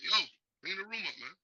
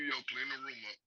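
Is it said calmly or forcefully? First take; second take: forcefully; calmly. First: It is said forcefully, with more insistence. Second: It is said calmly, without force.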